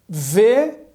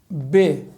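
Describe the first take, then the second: First: The consonant is a fricative like v. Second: The consonant is a stop like b. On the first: "Sem o daguejo" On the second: "a letra Bet com daguejo"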